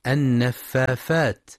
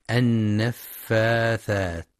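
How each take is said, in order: First: النفافات with f in place of th, slowly; wrong fa for tha. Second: النفاثات very slowly, with a clear th sound; correct tha. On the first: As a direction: say النفافات the way children mispronounce it. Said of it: "يبدلون الثاء فاء". (النفافات بإبدال الثاء فاء، نطق خاطئ) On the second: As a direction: stretch out النفاثات and stress the th. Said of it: "لنطقها الصحيح بالثاء". (النفاثات بالثاء الصحيحة ببطء) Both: Shown as a demonstration.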